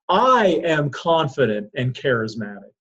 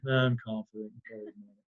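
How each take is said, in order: First: It is said with strong passion. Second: It is said flatly, without passion.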